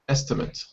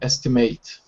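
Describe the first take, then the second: First: The word is said quickly, its ending cut short. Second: The word is said more slowly, its ending full. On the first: The word is used as a noun. "the noun is very quick. It's pronounced quickly" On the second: The word is used as a verb. "And then verb"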